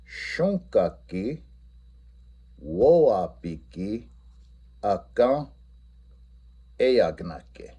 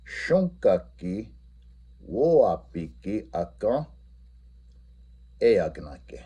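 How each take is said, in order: First: Each Lakota word said slowly with a rise; modelling the students' Lakota reply slowly; slow model answer. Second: Slow Lakota answer with stress on "woapiki"; repeating the Lakota reply for students; repeat model answer. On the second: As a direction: say it again a bit more smoothly. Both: Shown as a demonstration. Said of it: "what their reply would be".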